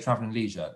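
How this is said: It is said with a Canadian pronunciation.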